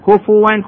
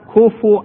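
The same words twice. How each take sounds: First: The f has a u vowel followed by w. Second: The f has a u vowel followed by a glottal stop. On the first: "هذه واضحة مكتوبة في القرآن الكريم" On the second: "تصير همزة على الواو"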